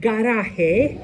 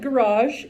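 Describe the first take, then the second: First: It is said with a Spanish pronunciation. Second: It is said with an English pronunciation. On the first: The speaker calls it right. "It is pronounced garaje" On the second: The speaker calls it wrong. "do not pronounce it garage"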